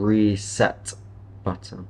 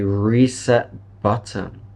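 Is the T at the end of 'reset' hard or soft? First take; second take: hard; soft. First: The final T of reset is fully released. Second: The final T of reset is soft. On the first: The speaker calls it wrong. "I'm not saying" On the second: The speaker calls it right. "Notice how my final T is soft"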